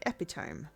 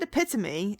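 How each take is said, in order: First: The word is pronounced the way it is spelled. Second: The word gets its usual spoken pronunciation. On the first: "if one read it first before hearing it, one would say epitome" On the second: "I said epitome"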